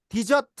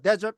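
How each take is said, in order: First: The first vowel sounds like 'ee'. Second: The first vowel sounds like 'eh'. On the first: It means to abandon. "디저트 하면은 버리다가 됩니다" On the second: It means a dry sandy region. "데저트 하면 사막이고"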